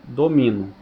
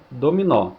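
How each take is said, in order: First: Domino stressed on the middle syllable mi; unaccented domino. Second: Dominó with stress on the final ó; accented dominó. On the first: Teacher showing the word without its accent: domino as do-MI-no. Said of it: "Se eu tirar o acento, fica". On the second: Teacher contrasting the accented word: Dominó stressed on ó. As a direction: say Dominó stressing the open ó at the end. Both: Shown as a demonstration.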